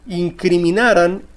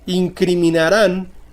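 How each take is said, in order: First: The stress is on the second-to-last syllable. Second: The stress is on the last syllable. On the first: It is a past subjunctive form. "es grave y sin tilde" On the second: It is a simple future form. "es aguda y con tilde"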